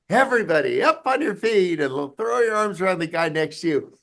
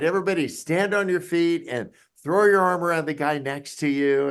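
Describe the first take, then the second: First: It is said enthusiastically, with more energy. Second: It is said calmly, with ordinary energy.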